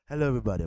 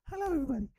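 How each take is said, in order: First: The voice is deep and low-pitched. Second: The voice is raised to a higher pitch. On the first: "If you have a deep voice, a deep man's voice, it'll be saying" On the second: "That's a higher pitch"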